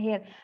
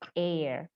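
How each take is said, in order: First: The word starts with an audible H sound. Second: The word starts with a vowel, no H sound. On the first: The speaker calls it wrong. "banyak orang bacanya hair" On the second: The speaker calls it right. "Huruf H di depannya silent, artinya tidak diucapkan"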